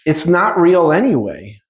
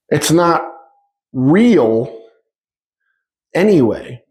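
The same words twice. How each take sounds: First: Said in the usual way. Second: "It's not" ... "real" ... "anyway" with long pauses between; slow, broken emphasis on "real"; spaced-out emphasis. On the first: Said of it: "repeated for emphasis". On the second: Shown as a demonstration. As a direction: let each word land alone. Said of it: "repeated with pauses".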